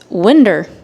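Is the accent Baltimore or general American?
Baltimore. It is said in a Baltimore accent. "it's winder"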